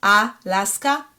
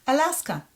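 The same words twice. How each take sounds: First: Alaska slowly as AH-LAS-KA; Hebrew-style "Alaska", drawn out; syllable-by-syllable Hebrew reading. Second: Alaska quicker, with reduced first A; English "Alaska", higher and quicker; familiar English pronunciation. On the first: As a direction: sound out "Alaska" with full A vowels. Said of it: "The Samech closes the syllable". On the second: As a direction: say "Alaska" the everyday way, uh-LAS-kuh. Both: Shown as a demonstration.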